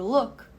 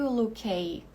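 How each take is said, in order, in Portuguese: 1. O k final é cortado, sem vogal. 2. O k final sai com uma vogal. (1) "eu digo look" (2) "aqui eu não digo lookay"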